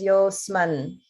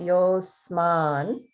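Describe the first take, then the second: First: The final vowel is said short. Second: The final vowel is said long. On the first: The speaker calls it wrong. "you pronounce it as yosman" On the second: The speaker calls it right. "that man is a dirgha. So make sure it's yosman"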